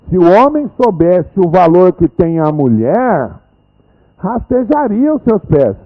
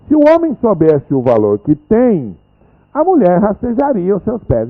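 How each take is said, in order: First: There is a pause after "mulher". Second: There is a pause after "tem".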